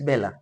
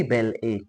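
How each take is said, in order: First: "Bella" as one flowing word; one-word pronunciation. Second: "Belle A" as two words, ending on the letter A; two-part pronunciation. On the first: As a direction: say "Bella" joined up, ending in a short uh. Contrasts pronounced name with its spelling. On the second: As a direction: say "Belle", then "A" like "ay". Contrasts spelled name with pronounced one. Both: Shown as a demonstration.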